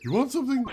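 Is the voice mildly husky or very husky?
very husky. The voice is made much more husky.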